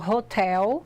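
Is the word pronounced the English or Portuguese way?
English. It is pronounced with English sounds. "em inglês eu falo hotel"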